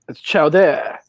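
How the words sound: It imitates the French chef's voice.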